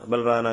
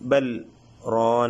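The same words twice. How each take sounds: First: The two words run together without a break. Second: A brief silent break separates the two words. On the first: The speaker calls it wrong. "ബൽ റാന അങ്ങനെ ഓതാതെ" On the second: The speaker calls it right. "അങ്ങനെ സക്ത ചെയ്ത് ഓതുന്നതാണ്"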